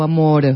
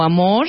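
First: Said in the usual way. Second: "amor" con R final siseante, como sh; R distinta. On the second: Shown as a demonstration. ("amor" con la erre asibilada al final) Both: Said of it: "tienes que decir de una manera".

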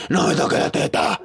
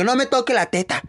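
First: Whispery imitation of an aging host; lightly voiced old woman, breathy; older woman's voice. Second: High mock shriek to the audience; a hammed-up high yell. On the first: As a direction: rasp it out like an old lady. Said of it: "como habla ella con una voz ya más vieja". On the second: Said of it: "Y gritaba a todo el público".

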